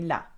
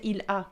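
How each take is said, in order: First: The two words are run together into one. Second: The two words are said separately and clearly. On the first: "They would say la" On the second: "French people wouldn't say il a"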